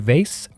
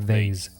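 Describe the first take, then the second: First: The word ends with a hissing s sound. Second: The word ends with a buzzing z sound. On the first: "hard S" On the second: "soft S"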